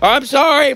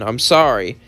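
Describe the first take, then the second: First: It is screamed very loudly. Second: It is mumbled quietly and indistinctly. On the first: "As he screamed" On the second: "he would say, mumbling"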